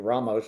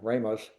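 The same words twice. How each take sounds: First: The name is said the Spanish way. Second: The name is said a non-Spanish way. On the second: "a lot of people are saying Ramos"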